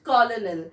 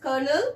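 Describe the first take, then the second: First: Colonel as spelt, "col-o-nel"; wrong pronunciation. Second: Colonel said as "kernel"; correct pronunciation. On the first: Teacher shows what not to say, wrong pronunciation. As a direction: sound both L's in colonel. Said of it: "not colonel". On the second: Teacher introduces the next tricky word, correct pronunciation. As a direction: say colonel with an R and no middle L. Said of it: "Yes, it is colonel". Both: Shown as a demonstration.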